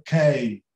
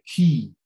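First: Key wrongly said to rhyme with day; misread as kay. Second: Key said as KEE with a long ee; true I sound. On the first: Teacher showing what first-time readers say, key as kay. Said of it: "mas não é key". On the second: Teacher correcting the misreading, key as kee. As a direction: say key with an ee, lower in pitch. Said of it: "mesmo I". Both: Shown as a demonstration.

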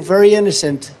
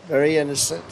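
First: Said in the usual way. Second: Much softer, dropped low and knowing; soft ironic repeat; quiet aside. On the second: Real, not acted. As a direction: mutter it to yourself with irony.

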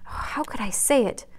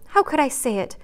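First: Tearful, fading. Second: Higher tearful cry of How could I say it; remorseful wife crying the question out higher; tearful, pitched up. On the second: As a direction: plead with yourself in tears, raised. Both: A narrator's reading. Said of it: "crying with repentant tears".

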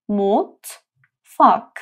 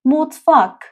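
First: مطفاک stretched very slowly; slow syllable demo. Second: مطفاک louder and higher; Turkish word mutfak. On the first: (مطفاک آهسته و کشیده) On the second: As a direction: say مطفاک with energy. (مطفاک بلند) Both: Shown as a demonstration. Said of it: "تلفظ این حرف م".

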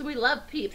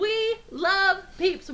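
First: Said in the usual way. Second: Slow, high, drawn-out gushing. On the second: Real, not acted. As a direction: stretch it out lovingly. Gushing about favorite candy.

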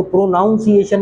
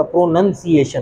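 First: "प्रोनाउंसिएशन" with noun as second syllable, raised pitch; mispronunciation. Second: Slow "प्रोनंसिएशन" with nun as second syllable; correct pronunciation. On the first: Teacher naming the form to avoid, mispronunciation. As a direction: say "प्रोनाउंसिएशन" with an ow vowel. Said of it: "प्रोनाउंसिएशन नहीं होता". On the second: Teacher naming the proper form, slow correct pronunciation. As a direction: say "प्रोनंसिएशन" slowly with an uh vowel. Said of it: "प्रोनंसिएशन होता". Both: Shown as a demonstration.

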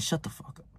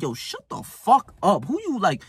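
First: Very soft, voiceless mutter; barely voiced inner retort; silent thought voiced. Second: Stretched-out mock outrage; imagined angry retort. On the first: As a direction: say it under the breath, like a private thought. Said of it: "like, in my head, I'm just thinking". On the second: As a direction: act out an indignant comeback, pitched up. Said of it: "in my head, I say".

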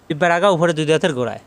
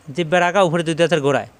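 The two takes are said the same way.

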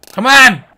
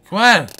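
First: Loud, higher urging shout; punched out loud and high; exasperated shout. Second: Raised-voice urging; impatient nudge to the fish. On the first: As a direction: yell it at a stubborn fish. Urging fish, second harder try. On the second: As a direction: push it out, a bit louder. Coaxing the fish to bite. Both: Real, not acted.

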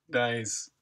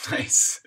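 First: Said in the usual way. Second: Breathy laugh into a whispered word. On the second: Real, not acted. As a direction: whisper it through a chuckle. Chuckling at chat message.

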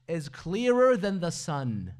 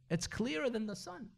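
First: Clearer than the sun, louder and slow; emphatic stress. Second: Said in the usual way. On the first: Shown as a demonstration. Preacher driving home the Imam's answer, emphatic. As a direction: lean hard on clearer.

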